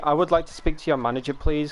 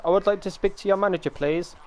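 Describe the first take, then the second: First: Said in the usual way. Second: Entitled customer. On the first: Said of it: "The, ... comes from". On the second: Retold or imitated. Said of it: "comes from, like, tech support".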